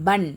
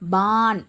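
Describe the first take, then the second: First: The vowel is kept short. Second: The vowel is drawn out long. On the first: The speaker calls it right. "பன் அப்படின்னு சொன்னால் தான் என்னது? Right" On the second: The speaker calls it wrong. "பான் அப்படின்னு சொல்லிடக்கூடாது"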